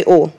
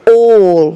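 First: Said in the usual way. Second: Loud, mock British accent. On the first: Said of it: "No, no, let's, let's say it". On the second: Shown as a demonstration. Preacher coaching the congregation to repeat, British accent. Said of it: "let's say it with a British accent".

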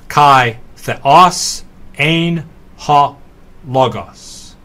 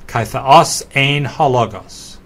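First: Word by word, with gaps between; slow, separated teaching read; very slow walkthrough. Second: Said in the usual way. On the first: Shown as a demonstration. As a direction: read it out very slowly for learners. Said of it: "walk very slowly through this example". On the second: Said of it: "The whole line reads".

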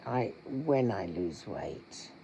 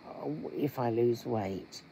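First: "when" stressed firmly and slowed. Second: "if" leaned on as a doubtful condition; stress on if. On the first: Shown as a demonstration. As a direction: press on "when" as a certainty, slowly. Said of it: "the attitude of saying". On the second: Retold or imitated. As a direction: weigh the word "if" as if unsure it will happen. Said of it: "like I said earlier today to a friend of mine".

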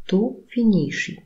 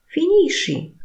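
First: Said in the usual way. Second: "Finisci" far higher with a steep fall; demand: "Finisci!"; commanding tune. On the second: Shown as a demonstration. Teacher snaps "Finisci" as an order. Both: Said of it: "intonacja powodują".

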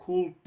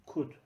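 First: Could with the L pronounced, ending in an l-d; wrong L sounded. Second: Could said as kood, the L silent; Could with no L at all, short kood. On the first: Teacher shows the wrong way to say Could, L sounded. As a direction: say Could voicing the L, like cold. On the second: Teacher gives the right Could, the L dropped. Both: Shown as a demonstration. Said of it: "Could değil".

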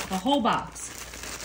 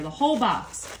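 First: "whole" drawn out slow and softer; slow stress on whole. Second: Said in the usual way. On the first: Shown as a demonstration. Cook stressing to viewers it's "the whole box", slowly. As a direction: lean on "whole", slow and low-key.

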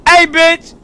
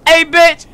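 The two takes are said the same way.

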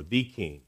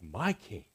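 First: "The" said as a full "thee"; stress on THE. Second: Softly stressed "my" before "King". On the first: Preacher shows what David doesn't say, "The" stressed. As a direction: lean on "The", pronounced thee, before "King". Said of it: "David doesn't say". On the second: Preacher contrasts David's personal words, "my" softly stressed. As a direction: make "my" personal and intimate, voice dropped soft. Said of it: "This is personal". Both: Shown as a demonstration.

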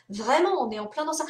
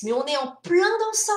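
First: Said in the usual way. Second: Higher and louder, leaning hard on plein; emphatic insistence. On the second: Real, not acted. To the writers, insisting this is where publishing is now, emphatic. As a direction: stress plein, high and forceful.

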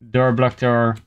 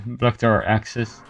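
First: Said in the usual way. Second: Slow, laughing through the words. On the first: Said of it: "repeats with a laugh". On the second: Real, not acted. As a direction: chuckle while saying it. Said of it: "laughs while repeating".

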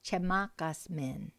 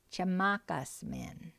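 First: Said in the usual way. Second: "Chamakas min" said slowly and evenly, each syllable clear; slow, careful model phrase for students; slow teaching repeat. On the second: Shown as a demonstration. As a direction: spell "Chamakas min" out slowly for learners to copy. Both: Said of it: "So let's repeat those".

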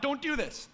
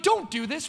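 First: Higher but softer plea. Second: Higher, pleading call; urgent cry out. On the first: Apostles pleading with the crowd, retold higher and softer. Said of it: "like, crying out". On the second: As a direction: apostles begging the crowd, half-acted higher cry. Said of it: "crying out". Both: Retold or imitated.

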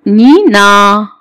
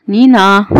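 First: "نينا" drawn out as nii-naa; syllable-by-syllable demo. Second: Said in the usual way. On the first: Shown as a demonstration. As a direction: stretch both syllables of "نينا" slowly. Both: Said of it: "وبعد كده ايه؟".

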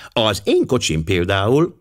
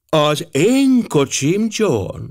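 First: Said in the usual way. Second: High, drawn-out wifely correction; sharp, piercing. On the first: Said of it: "Clapperton ezredes éppen azt mondta". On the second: A narrator's reading. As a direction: cut in slowly and piercingly. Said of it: "hangja éles volt és átható". (éles, átható, elnyújtott hang)

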